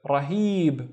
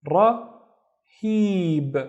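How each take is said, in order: First: Said in the usual way. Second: "rahib" broken into "ra" and a long "hib"; slow sounding-out. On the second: Shown as a demonstration. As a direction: stretch "rahib" out slowly by syllables. Teacher sounds out new word slowly.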